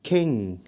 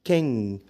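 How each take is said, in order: No difference in how they are said.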